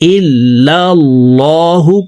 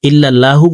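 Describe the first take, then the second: First: The L in Allah is full and heavy. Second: The L in Allah is thin and light. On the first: The speaker calls it right. "পড়তে হবে। আল্লাহ শব্দের আগের হরফে জবর আছে।" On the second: The speaker calls it wrong. "বলা যাবে না"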